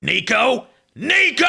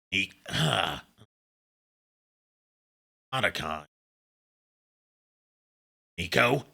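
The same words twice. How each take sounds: First: Rising from a call into a high loud shout; Snake game over shout. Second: Quiet, low-key Snake-style call. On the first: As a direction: build from a call to a desperate scream. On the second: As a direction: call the name softly like Snake. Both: Pretend. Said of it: "Say Nico in Snake's voice".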